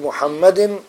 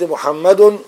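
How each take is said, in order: First: The word ends with an i vowel. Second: The word ends with a u vowel. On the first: The name stands in apposition to the preceding noun. "بدل نبي" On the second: The name is the predicate of an omitted subject. "خبر المبتدأ مرفوع"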